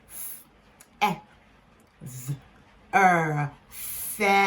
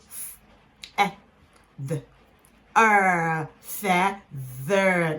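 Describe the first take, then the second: First: "f", "e", buzzed voiced "th", "er", then "feather"; corrected th. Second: "f", "e", short "th", "er", then "feather"; first sounded-out take. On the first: Teacher retaking feather to show the TH sound, corrected th. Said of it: "The T H sound is actually pronounced as". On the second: Teacher blending feather before correcting the th, sounded out. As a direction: sound out "feather" with a brief, light "th". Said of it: "Let me take that again". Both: Shown as a demonstration.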